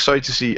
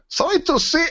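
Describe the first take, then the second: First: Said in the usual way. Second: High-pitched mock German accent; comic German accent, pitched way up. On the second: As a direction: put on a silly, high German voice. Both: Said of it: "shouldn't do it in that accent".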